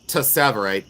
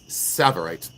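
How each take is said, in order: First: The word begins with a t sound. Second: The word begins with a plain s sound. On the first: The speaker calls it wrong. "you don't say" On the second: The speaker calls it right. "It's Savarite"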